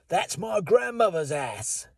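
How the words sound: It is spoken in a Cockney London accent. "In Cockney London, they might say"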